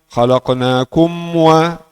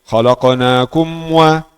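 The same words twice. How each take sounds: First: The m is clear with lips fully closed. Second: The m is clear with lips fully closed.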